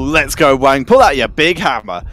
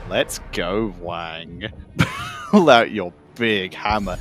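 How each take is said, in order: First: It is said in a plain, innocent tone. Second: It is said in a suggestive, innuendo-laden tone. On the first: It is a harmless cheer. The speaker calls it right. "is fine" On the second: It hints at a rude double meaning. The speaker calls it wrong. "if we just change the inflection, ... that becomes very borderline acceptable"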